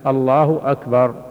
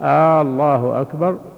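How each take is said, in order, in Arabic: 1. لا تُمَدّ أي حركة فوق قدرها الطبيعي. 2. الحركة الأولى في «الله» ممدودة طويلاً. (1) "أن يأتي بها بهذا اللفظ الله أكبر" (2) "يمد همزة، الهمزة الأولى"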